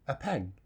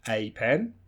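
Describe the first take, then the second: First: The article is said as a reduced vowel. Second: The article is said as a full vowel. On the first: "the more, more common weak form" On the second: "the strong form"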